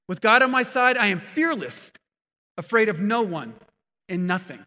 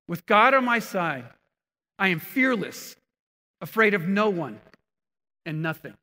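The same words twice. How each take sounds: First: The words are said at a loud volume. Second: The words are said at a normal volume. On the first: "I say it louder" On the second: "The Message translates it like this"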